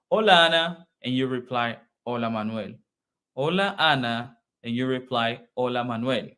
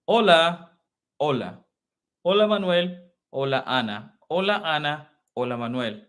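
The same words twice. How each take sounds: First: Measured, formal hola exchange; formal greeting. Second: Livelier, looser hola; casual greeting. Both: Shown as a demonstration. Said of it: "This is formal".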